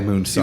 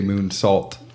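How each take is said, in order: First: The word ends without any T sound. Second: The word ends with a clear T sound. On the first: The speaker calls it wrong. "not a moonsaw" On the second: The speaker calls it right. "put the T in their enunciation"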